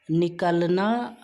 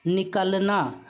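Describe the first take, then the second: First: निकलना said slowly with the last vowel drawn out; slow demo. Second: Said in the usual way. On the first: Shown as a demonstration. (निकलना को धीरे-धीरे बोलें) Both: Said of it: "उसके बाद में कल एक साथ आ रहा है".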